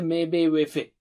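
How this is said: The short vowels sound like e. The speaker calls it wrong. "don't read in Persian or Urdu style"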